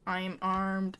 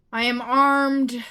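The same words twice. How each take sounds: First: Said in the usual way. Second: Loud, drawn-out battle announcement; bold declaration. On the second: Pretend. Gamer announcing the weapon to the game, bold and loud. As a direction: declare it slowly at full voice.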